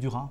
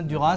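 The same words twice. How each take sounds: First: The final S is silent. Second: The final S is pronounced. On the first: "ça se trouve c'est plus joli que Duras" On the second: "moi je prononce hein"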